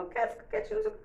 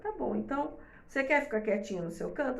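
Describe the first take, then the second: First: Put-on high, fast little child's voice; imitating a child. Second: Said in the usual way. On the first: Child telling mother, high and quick, wanting to be alone. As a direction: pipe it up quickly like a small child. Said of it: "Às vezes a criança falava". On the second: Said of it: "Eu falei".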